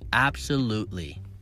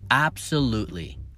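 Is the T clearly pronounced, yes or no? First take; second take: no; no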